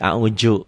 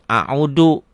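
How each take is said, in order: First: The middle consonant is a j sound. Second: The middle consonant is a plain d. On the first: This is how Betawi speakers say it. "Orang Betawi nanti ke zai" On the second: This is how Sundanese speakers sometimes say it. "Orang Sunda kadang a'udu"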